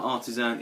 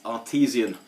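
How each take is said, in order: First: It is said like the word artisan. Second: It is said like the word artesian. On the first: The speaker calls it wrong. "It's not artisan" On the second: The speaker calls it right. "which is the correct pronunciation"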